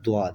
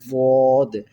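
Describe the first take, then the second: First: The letter is said with a d-like sound. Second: The letter is said with the emphatic Arabic sound. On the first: The speaker calls it wrong. "बिल्कुल द्वाद पढ़ा जाता है दाल की बेस पे" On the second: The speaker calls it right. "जिस तरह अरब पढ़ते हैं"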